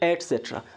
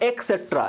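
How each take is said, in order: First: The word begins with an 'et' sound. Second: The word begins with an 'ek' sound. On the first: The speaker calls it right. "ওটা হবে এটসেট্রা" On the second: The speaker calls it wrong. "এটা কিন্তু সম্পূর্ণ ভুল pronunciation"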